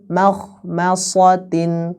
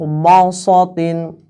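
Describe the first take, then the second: First: The first syllable is light and thin. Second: Every syllable is heavy and thick. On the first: The speaker calls it right. "ma-nya tetap yang di awal juga tipis" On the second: The speaker calls it wrong. "seolah-olah semuanya itu jadi huruf tebal semua"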